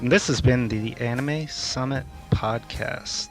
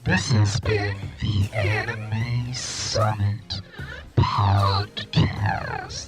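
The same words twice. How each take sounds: First: It is said in a normal voice. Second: It is said in a funny warbling voice.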